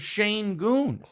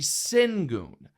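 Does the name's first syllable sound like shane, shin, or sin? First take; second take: shane; sin. First: The first syllable sounds like shane. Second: The first syllable sounds like sin. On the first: This is how the announcer keeps saying it. "won't stop calling him Shane Goon" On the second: This is how it reads from the spelling. "the way it's spelled, that would be Singun"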